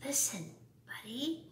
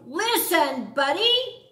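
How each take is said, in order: First: Soft, hushed "Listen, Buddy"; whispering. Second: Loud, high yell of "Listen, Buddy!". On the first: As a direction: parents murmur it gently. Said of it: "They tried whispering". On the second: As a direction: parents shout to get him to listen. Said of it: "His parents tried yelling". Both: A narrator's reading.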